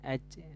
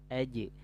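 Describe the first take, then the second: First: The final consonant leaks out like a 'ch' sound. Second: The final consonant is a full voiced 'j' sound. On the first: The speaker calls it wrong. "jangan aj" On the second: The speaker calls it right. "tapi aj"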